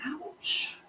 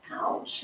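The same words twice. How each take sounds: First: Breathy whispered ouch, rising. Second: Soft unvoiced ouch, falling; whispered ouch. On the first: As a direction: whisper it with a wince. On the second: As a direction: breathe it out quietly. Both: Real, not acted. Sympathy for a week-long bruise.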